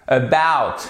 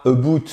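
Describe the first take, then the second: First: "About" as uh-BAOWT, falling; stress on second syllable. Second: "about" misread as "a-boot", rising; French-style ABOUT. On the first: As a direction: hit BOUT in "About", open diphthong. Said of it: "porteuse de l'accent tonique". (accent tonique sur "bout" de "About") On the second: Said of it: "c'est pas about". ("about" à la française, avec un OU) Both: Shown as a demonstration.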